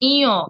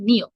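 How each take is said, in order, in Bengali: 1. শব্দটি একটি অনুনাসিক স্বরধ্বনি দিয়ে শুরু হয়। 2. শব্দটি একটি স্পষ্ট n ধ্বনি দিয়ে শুরু হয়। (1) "সঠিক উচ্চারণ হবে ইয়, একটু নাকি স্বরে হবে" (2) "ভুল উচ্চারণ"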